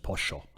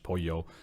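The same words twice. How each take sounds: First: The middle consonant sounds like sh. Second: The middle consonant sounds like a y.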